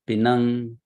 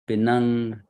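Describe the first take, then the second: Both takes have the same delivery.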